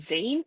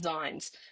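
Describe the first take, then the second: First: The vowel sounds like 'ee', not 'eye'. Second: The vowel sounds like 'eye', not 'ee'. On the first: The speaker calls it right. "It is the double E sound" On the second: The speaker calls it wrong. "I used to call them Zines because it's spelled Z I N E"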